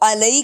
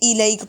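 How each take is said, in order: First: The word begins with an 'a' vowel. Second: The word begins with an 'i' vowel. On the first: The speaker calls it wrong. "इसको अलैक नहीं पढ़ेंगे" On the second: The speaker calls it right. "इलैक पढ़ेंगे"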